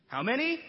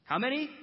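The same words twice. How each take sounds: First: High pressing question; high incredulous repeat; incredulous how many. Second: Sharp, high incredulous question; high pressing question; incredulous how many. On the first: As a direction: make them say it again. Jesus presses again. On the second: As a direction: press them, in disbelief. Jesus presses the disciples. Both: Acted.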